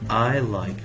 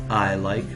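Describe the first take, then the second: The two takes are said the same way.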